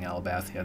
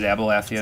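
First: The L comes before the B. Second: The B comes before the L. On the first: The speaker calls it wrong. "So I was probably saying Alabathia then" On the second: The speaker calls it right. "It's Abalathia"

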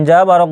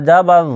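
No difference in how they are said.

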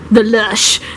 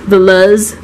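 First: The name ends with a sh sound. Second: The name ends with a z sound. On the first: "Or like a sh" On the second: "Or a z"

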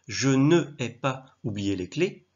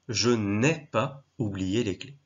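First: Ne is said as a separate full syllable. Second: Ne is elided and runs into the next vowel. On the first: The speaker calls it wrong. "ça n'a pas beaucoup de sens, du moins ce n'est pas très français" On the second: The speaker calls it right. "à l'oreille, ça sonne beaucoup mieux"

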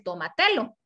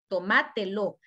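First: The second syllable is left unstressed. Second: The second syllable carries the stress. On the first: The speaker calls it wrong. "porque si no, dice tómatelo. Y ya la regué" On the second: The speaker calls it right. "tomá tiene que llevar la tilde en la A de ma"

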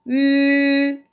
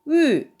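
First: The pitch stays high and level. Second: The pitch falls sharply from high to low. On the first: "일성" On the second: "사성"

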